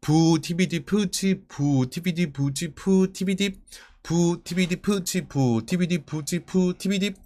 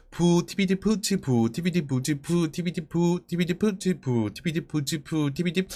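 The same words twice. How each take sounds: First: Unhurried rhythmic chant of beatbox syllables; measured practice-pace beat reading; slow syllable reading. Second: Brisk rhythmic chant of beatbox syllables; steady, quicker practice chant; quickened syllable reading. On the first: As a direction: read each drum syllable slowly, in time. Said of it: "천천히 읽었을 땐 이렇게 돼요". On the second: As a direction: run the drum syllables together without gaps. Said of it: "점점 빠르게 읽는 연습을". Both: Shown as a demonstration.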